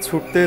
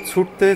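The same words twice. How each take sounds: The two takes are said the same way.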